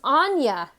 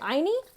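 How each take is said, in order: First: The name ends with a 'ya' sound. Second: The name ends with an 'ee' sound. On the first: The speaker calls it right. "Pronounced Anya" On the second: The speaker calls it wrong. "I was way off"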